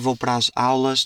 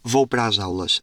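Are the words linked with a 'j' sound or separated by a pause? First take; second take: pause; j sound. First: A short pause separates the words instead. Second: A 'j' sound links the words together. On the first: The speaker is trying to avoid the regional accent. "Se eu falar com calma, ... eu tento dar ali uma pausa" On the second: This is the speaker's natural regional accent. "meter os jotas no meio das palavras, entre palavras"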